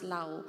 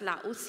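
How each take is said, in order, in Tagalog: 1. Hindi nagtatapos sa tunog na s ang salita. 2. Nagtatapos sa tunog na s ang salita. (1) "but it is pronounced as Lao" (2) "we pronounce that as Laos here"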